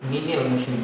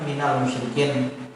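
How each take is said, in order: First: The vowel after min is an i sound. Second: The vowel after min is an a sound. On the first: This is a rare reading. "bila lam takrif malah mini" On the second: This is the common reading. "kalau kita bacakan"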